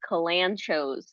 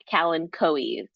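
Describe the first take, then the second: First: The ending sounds like 'choes', not like 'Chloe's'. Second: The ending sounds like 'Chloe's', with a hard k. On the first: This is the common everyday pronunciation. "a lot of people actually uh, call these Kalanchos" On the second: This is the botanical Latin pronunciation. "you pronounce it like Chloe, so it's like"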